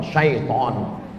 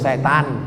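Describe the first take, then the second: First: The word is said as 'syai-ton' with 'ai'. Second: The word is said as 'se-tan' with 'e'. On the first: This is the correct form. "yang betul nih mana Pak Ustaz? ... Syaiton" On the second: This is how local people commonly say it. "Cuman orang kita payah bilang syaiton. Apa tuh? Setan"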